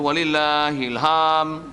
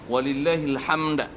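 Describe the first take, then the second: First: The final d sound is dropped entirely. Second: The final d is released with a slight bounce. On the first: The speaker calls it wrong. "Dal hilang" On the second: The speaker calls it right. "Itu bunyi qalqalah ni"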